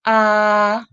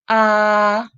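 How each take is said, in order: First: The pitch stays high and level. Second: The same.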